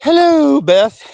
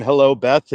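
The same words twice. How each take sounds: First: Put-on high, loud old-lady falsetto hello; Mrs. Doubtfire voice. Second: Said in the usual way. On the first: Imitating Ma greeting Beth in a Mrs. Doubtfire voice. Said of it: "in a Missus Doubtfire voice". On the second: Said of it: "I did Ma saying".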